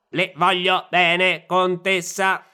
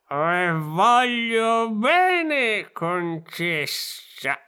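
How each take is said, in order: First: It is said like a robot. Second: It is said in a drunk voice.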